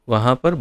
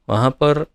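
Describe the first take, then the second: Both takes have the same delivery.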